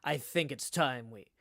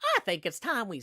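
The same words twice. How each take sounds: First: It is read in the narrator's ordinary voice. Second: It is read in a put-on character voice. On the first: The speaker calls it wrong. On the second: The speaker calls it right.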